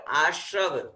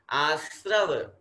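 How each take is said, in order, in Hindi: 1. r से पहले का व्यंजन sh है। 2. r से पहले का व्यंजन सादा s है। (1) "नॉट आश्रव" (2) "स के नीचे र लगा हुआ स्र"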